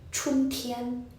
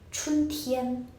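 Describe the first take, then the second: Both takes have the same delivery.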